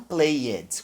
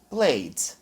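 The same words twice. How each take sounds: First: The ending is said as an extra syllable. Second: The ending is only a short d sound. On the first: The speaker calls it wrong. "Não played, com som de E D, não" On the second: The speaker calls it right. "Somente com som do D"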